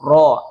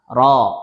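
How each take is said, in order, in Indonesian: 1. Suku kata ini diucapkan dengan bibir dimonyongkan dan dibulatkan. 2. Suku kata ini diucapkan tanpa memonyongkan bibir. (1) "memayunkan mulut saat membacanya tafkhim ... salah ya" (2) "Yang benar"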